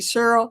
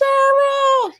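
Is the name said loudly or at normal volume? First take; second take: normal; loudly. First: The name is said at normal volume. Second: The name is called out loudly.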